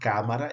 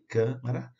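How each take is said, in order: First: The stressed first a is open. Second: The stressed first a is closed. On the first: The speaker calls it wrong. "não é câmara" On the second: The speaker calls it right. "O A fechado"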